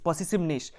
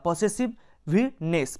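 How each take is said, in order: First: The word is said smoothly without any break. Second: The word is split with a break before the ending.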